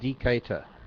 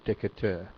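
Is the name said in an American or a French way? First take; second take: American; French. First: The name is said with an American pronunciation. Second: The name is said with a French pronunciation. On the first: The speaker calls it right. "I guess it's pronounced the American way" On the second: The speaker calls it wrong. "I was trying to pronounce it the French way"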